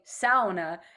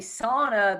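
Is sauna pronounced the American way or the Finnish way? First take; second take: Finnish; American. First: Sauna is pronounced the Finnish way. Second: Sauna is pronounced the American way. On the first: This is how the people from the sauna's homeland say it. The speaker calls it right. "she is from Finland, ... and they say sauna" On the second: This way gets mocked by people from the sauna's homeland. The speaker calls it wrong. "if I say sauna, they make fun of me"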